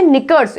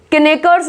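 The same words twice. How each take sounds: First: निकर्स starting on n; silent k. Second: किनेकर्स opened as ki-nek-ers; wrong sounded k. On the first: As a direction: say निकर्स as nik-ers. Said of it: "ये होता है". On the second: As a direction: misread किनेकर्स with an extra k syllable. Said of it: "नहीं होता". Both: Shown as a demonstration.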